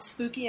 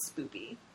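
First: The word is said in a sincere way. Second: The word is said in a joking, mock-spooky way. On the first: The thing is genuinely eerie. "I find it authentically spooky" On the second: The thing is only jokingly eerie. "facetiously spooky"

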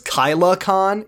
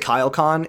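First: An extra a sound comes between Kyle and Con. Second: Kyle and Con are joined with no vowel between. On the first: The speaker calls it wrong. "He says KylaCon, like KyleACon" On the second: The speaker calls it right. "he doesn't say KyleCon"

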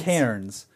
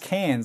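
First: The name is said as it is spelled. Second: The name is said with sounds dropped. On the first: "it's spelled Cairns" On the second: "no, it's Cairns... they just omit, like, two letters"

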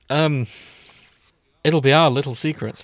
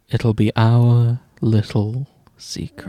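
First: The line sounds less creepy and more harmless. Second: The line sounds even creepier and more unsettling. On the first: The speaker calls it right. "that's as good as it's going to fucking get" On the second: The speaker calls it wrong. "how about this? ... That's worse"

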